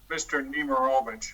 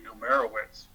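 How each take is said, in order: First: The name ends with a 'vich' sound. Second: The name ends with a 'witz' sound. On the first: The speaker calls it right. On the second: The speaker calls it wrong.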